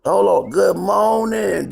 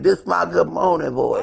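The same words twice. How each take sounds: First: Slow raspy morning greeting; groggy just-woke-up voice. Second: Slow rough morning voice; croaky just-woke-up voice. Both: Real, not acted.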